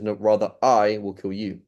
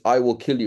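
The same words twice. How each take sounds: First: I drawn out and emphasized; slow retort leaning hard on I; stress on I. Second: Said in the usual way. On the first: Shown as a demonstration. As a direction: counter the threat with a long, stressed I. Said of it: "I'm kind of mocking him". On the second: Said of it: "He says".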